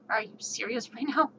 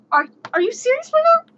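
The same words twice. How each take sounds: First: Muttered disbelief. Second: Much higher, louder incredulous cry; shrieking disbelief. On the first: Disbelief at second check. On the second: Player shrieking at the samurai who rolls again. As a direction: squeal it in total disbelief. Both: Retold or imitated.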